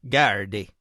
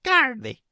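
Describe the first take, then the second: First: Gardaí said low and flat, Ulster Irish way; Ulster Irish pronunciation. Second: Gardaí jumps high then falls, Connacht Irish way; Connacht Irish pronunciation. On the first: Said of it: "I found the Ulster dialect has it". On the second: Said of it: "the Connacht dialect". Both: Shown as a demonstration.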